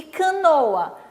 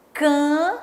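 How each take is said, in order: First: Said in the usual way. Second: "Canoa" split into ca, no, a with long pauses; syllable by syllable. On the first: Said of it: "E canoa?". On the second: Shown as a demonstration. Teacher counting syllables for children, "Canoa" in three separate beats. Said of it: "Três sílabas".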